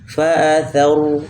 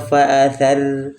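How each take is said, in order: First: The r is pronounced heavy and thick. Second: The r is pronounced light and thin. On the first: The speaker calls it right. "Tebalkan ya" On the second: The speaker calls it wrong. "tidak boleh"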